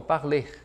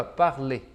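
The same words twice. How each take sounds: First: "Parler" with the final R pronounced; mistaken sounded R. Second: "parler" ending on a pure "lê", R dropped; silent final R. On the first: Teacher imitates students' common mistake, "Parler" with audible final R. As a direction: say "Parler" as learners do, ending on an R. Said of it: "Muitos alunos erram". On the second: Teacher shows students how it should sound, "parler" with silent final R. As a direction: say "parler" as "par-lê", lower pitched. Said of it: "a gente não vai pronunciar". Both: Shown as a demonstration.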